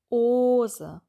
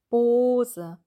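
Both takes have the same delivery.

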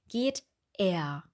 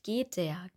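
First: The vowel starts fresh after a short break. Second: The t runs straight into the vowel. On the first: The speaker calls it right. "wir sagen geht er" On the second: The speaker calls it wrong. "Wir sagen nicht geht der"

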